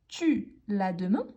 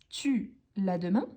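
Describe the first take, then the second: Both takes have the same delivery.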